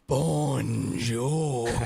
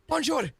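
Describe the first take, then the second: First: The word is said slowly and drawn out. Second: The word is said at normal speed.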